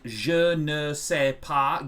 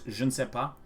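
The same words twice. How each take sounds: First: Every syllable of the phrase is said in full. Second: The syllables are run together and shortened.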